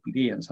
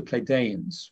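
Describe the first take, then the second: First: "Pleiadians" with a DEE sound in the middle; alternative pronunciation. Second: "Pleiadians" with a DAY sound in the middle; alternative pronunciation. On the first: Speaker unsure of the name, offering "Pleiadians" as plee-DEE-ans. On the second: Speaker unsure of the name, offering "Pleiadians" as play-DAY-ans. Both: Shown as a demonstration. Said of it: "never know how to pronounce it".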